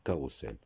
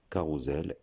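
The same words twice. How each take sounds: First: "carrousel" misread ka-rou-sel; wrong hard-s version of "carrousel". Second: "carrousel" said ka-rou-zel. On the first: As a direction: say "carrousel" with an unvoiced s, no z. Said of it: "et non". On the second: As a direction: say "carrousel" with a voiced z for the s. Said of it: "se prononce". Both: Shown as a demonstration.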